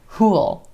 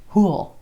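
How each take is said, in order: First: Will is reduced into one syllable, like pool. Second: Will is reduced into one syllable, like pool.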